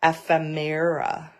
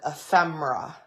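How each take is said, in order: First: "ephemera" as eff-eh-MAIR-uh; "ephemera" in four careful syllables, eff-eh-MAIR-uh; correct pronunciation. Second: "ephemera" with stressed FEM and short e; "ephemera" squeezed to three syllables, eh-FEM-ruh; own pronunciation. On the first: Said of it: "the correct pronunciation is". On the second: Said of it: "I called it ephemera". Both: Shown as a demonstration.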